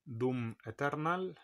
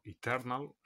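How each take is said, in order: First: Eternal read Spanish-style, starting with "e"; Spanish pronunciation. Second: Eternal said English-style, starting with "i"; English pronunciation. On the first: Reading a game title to viewers, Eternal pronounced the Spanish way. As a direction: say Eternal as spelt, "e-ter-NAL". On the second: Offering viewers the other reading, Eternal pronounced the English way. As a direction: say Eternal as "i-TER-nal". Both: Shown as a demonstration. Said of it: "o Eternal".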